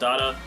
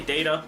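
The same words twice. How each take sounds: First: Its vowel rhymes with errata. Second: Its vowel does not rhyme with errata. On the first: This is the pronunciation the speaker does not normally use. "and not data, but it doesn't rhyme with errata" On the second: This is the speaker's usual pronunciation. "I do say data"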